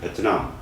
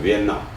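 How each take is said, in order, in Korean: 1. 이 이름은 분명한 't' 소리가 납니다: be-teu-nam. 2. 대신 이 이름은 'n' 소리가 납니다: bi-en-nam. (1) "그냥 베트남 그러면 이 사람들 잘 좋아하지 않습니다" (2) "비엔남 이렇게 표현을 하는 게 좋습니다"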